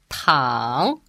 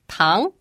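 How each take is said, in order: First: It has the third tone, dipping then rising. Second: It has the second tone, rising in pitch. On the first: It means to lie down. "The third tone, pronounced tang, it's a verb. It means to lie down" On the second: It means sugar. "The second tone, pronounced tang, it means sugar"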